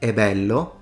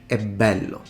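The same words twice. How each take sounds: First: The B is short and single. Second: The B is long and doubled. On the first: The speaker calls it wrong. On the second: The speaker calls it right. "as if you had two consonants"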